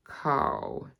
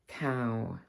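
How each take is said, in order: First: 'cow' with an RP vowel, dropping low; RP accent. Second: Said in the usual way. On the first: Shown as a demonstration. Teacher contrasting RP with her own accent, RP accent. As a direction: RP accent, placed on the bottom lip. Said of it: "show you the difference between". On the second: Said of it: "my own accent and the R P".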